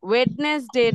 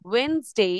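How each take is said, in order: First: The first d sound is pronounced clearly. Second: The first d sound is left out. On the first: The speaker calls it wrong. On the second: The speaker calls it right.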